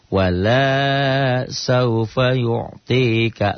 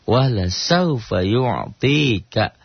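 First: The vowel after the first L is long. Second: The vowel after the first L is short. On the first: The Lord will not give. The speaker calls it wrong. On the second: The Lord will surely give. The speaker calls it right.

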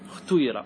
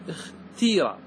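First: The vowel after the t blends u and i. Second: The vowel after the t is a long i. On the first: "لغات الإشمام" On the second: "بالكسر اختيرة، تكسر همزة الوصل وتكسر التاء"

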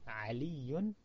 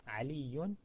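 No difference in how they are said.

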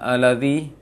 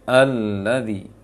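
First: The doubled l is said quickly, not held. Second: The doubled l is held for a moment. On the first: The speaker calls it wrong. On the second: The speaker calls it right. "tapi ... Berikan hak tasydid, menahan tasydidnya"

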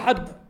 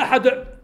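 First: The final d ends with only a light echo. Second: The final d ends with a strong pushed echo. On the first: The speaker calls it right. "قل هو الله أحد" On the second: The speaker calls it wrong. "لا أحد"

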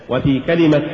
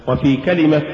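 No difference in how they are said.

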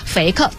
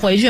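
First: It is said in Hunan dialect pronunciation. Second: It is said in standard Mandarin pronunciation.

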